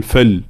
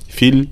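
First: "فل" leaning to fal; wrong unclear kasra. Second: "فل" as a crisp fil; correct clear kasra. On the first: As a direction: say "فل" with an a-like vowel. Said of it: "لا نقول". (فل بكسرة مائلة للفتح) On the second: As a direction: say "فل" with a full i. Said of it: "لابد من بيان حركة الكسر". (فل بكسرة بينة) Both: Shown as a demonstration.

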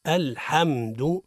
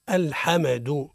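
First: الحمد slowly, m hummed closed straight into du; correct still mim. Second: الحمد with an extra vowel after m, "al-hamedu"; bounced mim. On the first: Teacher corrects the mim mistake, slow clean mim. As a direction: hold the م of الحمد without bouncing. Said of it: "الصواب هو". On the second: Teacher imitates the mim mistake, qalqala on mim. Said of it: "قلقلة الميم". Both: Shown as a demonstration.

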